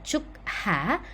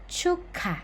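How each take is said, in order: First: The final k and h are said separately. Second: The k and h merge into one aspirated sound. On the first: The speaker calls it wrong. "bukan cuk ha" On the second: The speaker calls it right. "melainkan cuka"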